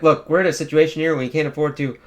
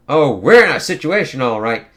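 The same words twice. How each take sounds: First: Said in the usual way. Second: Louder, sarcastic throwback of his words; mocking echo. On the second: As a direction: throw his line back at him with scorn. Magik mockingly echoes his words.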